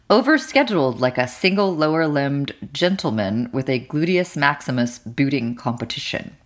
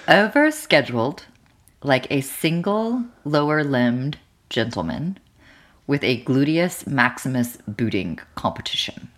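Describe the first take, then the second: First: It is said at normal speed. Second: It is said more slowly.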